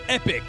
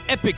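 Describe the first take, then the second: First: It is said the American way, like epic. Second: It is said the American way, like epic.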